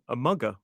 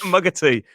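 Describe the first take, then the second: First: "a mugger" said for "a mug of tea", the joke word; "mugger", the joke, not the real phrase; jokey wrong "mugger". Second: "A mug of tea" said right, "mug" then "of tea", through a laugh; laughing correct "mug of tea"; correct phrase, laughing. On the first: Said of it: "but we don't say that". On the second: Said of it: "so we have it in a mug". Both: Shown as a demonstration.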